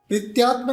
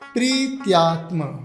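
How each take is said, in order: First: The first vowel is short. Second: The first vowel is held long. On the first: The speaker calls it wrong. "प्रीत्यात्म नहीं" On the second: The speaker calls it right. "ये दीर्घ है, तो दीर्घ में हमें समय को ज्यादा देना पड़ता है"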